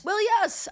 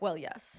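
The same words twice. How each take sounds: First: Pitched way up, insistent; emphatic agreement. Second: Low, quiet concession; resigned agreement. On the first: Speaking as a teenager defending the maze plan, high and emphatic. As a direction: leap high on the repeat. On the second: Speaking as a teenager accepting the plan, quiet and low. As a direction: say it small and under the breath. Teenagers' reply, first take. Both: Acted.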